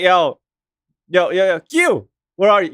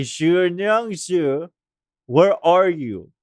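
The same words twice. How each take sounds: First: "Q" as a quick plain English letter; casual anglicized pronunciation. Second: Very slow, careful "Zhu Nyang Zhu"; respectful Chinese pronunciation. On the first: Too hard when speaking English, so a casual anglicized "Q". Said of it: "we're speaking English here". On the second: Trying to be respectful of the name, slow careful Chinese-style "Zhu Nyang Zhu". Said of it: "if I wanna try to be respectful". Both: Shown as a demonstration.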